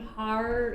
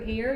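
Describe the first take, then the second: First: The word is said like 'har', without the 'air' vowel. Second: The word is said with the 'air' vowel. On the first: The speaker calls it wrong. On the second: The speaker calls it right.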